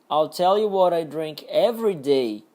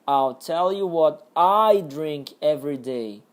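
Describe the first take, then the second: First: The stress falls on the words every day. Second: The stress falls on the word I. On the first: "Agora no último, every day" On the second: "a entonação aqui era no I, no eu"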